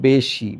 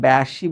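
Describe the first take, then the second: First: The first vowel is closed, like 'e' in 'bed'. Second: The first vowel is open, like 'a' in 'cat'. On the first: The speaker calls it right. "এটাকে বলতে হবে বেশি" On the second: The speaker calls it wrong. "এটাকে তুমি বেশি বলতে পারবা না"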